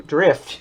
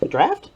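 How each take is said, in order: First: "Drift" with a short i, firm and falling; corrected vowel. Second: "draft" with an open a, unsure rising; questioning "draft" with the wrong vowel. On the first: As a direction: say "Drift" firmly, short i sound. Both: Real, not acted.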